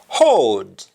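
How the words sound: It starts with an h sound.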